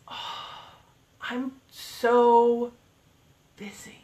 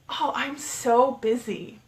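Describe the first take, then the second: First: It sounds downbeat and unsmiling. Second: It sounds upbeat and smiling. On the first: The person feels burdened by being busy. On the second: The person is happy to be busy.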